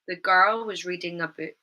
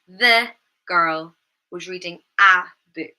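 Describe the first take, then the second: First: 'The' and 'a' have weak schwa vowels. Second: 'The' and 'a' have full, strong vowels. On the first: The speaker calls it right. "So we would use the schwa sound" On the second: The speaker calls it wrong. "Rather than"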